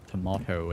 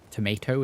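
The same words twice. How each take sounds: First: It is said with a British pronunciation. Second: It is said with an American pronunciation. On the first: "the way I say it from over here in uh, Britbong land" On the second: "more Americanized"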